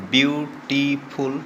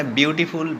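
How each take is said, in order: First: beautiful broken into three drawn-out syllables. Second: Said in the usual way. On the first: Shown as a demonstration. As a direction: count out the three beats of beautiful. (Beautiful শব্দটি তিন সিলেবলে ভেঙে টেনে) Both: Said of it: "ট্রাইসিলেবলিক word".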